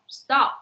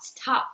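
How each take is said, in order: First: The t is said without a puff of air. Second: The t is said with a puff of air. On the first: The speaker calls it right. "you normally do not aspirate" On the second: The speaker calls it wrong. "it is very hard to say stop"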